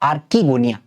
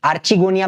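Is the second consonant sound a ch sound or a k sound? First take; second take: k sound; ch sound. First: The second syllable starts with a k sound. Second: The second syllable starts with a ch sound. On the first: The speaker calls it right. "Correct pronunciation होता है आर्कीगोनिया" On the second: The speaker calls it wrong. "आर्चिगोनिया भी बोलो, ठीक है, आपकी मर्जी"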